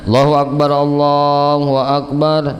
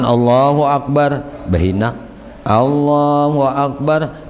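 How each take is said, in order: First: Both phrases are said in one breath. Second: A breath pause separates the two phrases.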